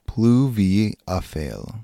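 The word is said with a put-on accent.

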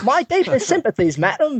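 It is spoken in an American's exaggerated mock Cockney. "the American British, then"

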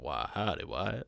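It is a deep, bent Doc impression voice.

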